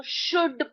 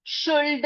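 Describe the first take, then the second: First: शुड with no l, "shood"; silent l. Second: शुल्ड with l sounded, "shoold"; audible l before the d in शुल्ड; wrong pronunciation. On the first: Teacher giving the right reading, silent l. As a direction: go straight from vowel to d in शुड. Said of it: "क्या पढ़ेंगे हम इसको?". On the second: Teacher warning pupils off this reading, wrong pronunciation. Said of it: "शुल्ड नहीं पढ़ेंगे". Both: Shown as a demonstration.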